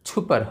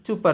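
First: It begins with an aspirated chh sound. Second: It begins with an unaspirated ch sound. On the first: "ছ দিয়ে লিখলে ছুপার হবে" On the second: "চ দিয়ে লিখি, চুপার হবে"

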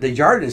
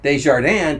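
First: The name is said with English sounds. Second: The name is said with French sounds. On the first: The speaker does not speak French. "So he Americanized his last name" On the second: The speaker speaks French. "people would think I speak French"

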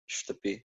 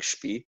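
First: The word is said in full, two syllables. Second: The word is squeezed into one short syllable.

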